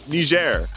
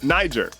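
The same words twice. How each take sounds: First: The name has the local pronunciation. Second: The name has the American English pronunciation. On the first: "apparently locals say Niger" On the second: "in American English, it's Niger"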